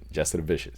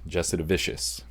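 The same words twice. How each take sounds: First: The name is said quickly and punchily. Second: The name is said slowly and carefully.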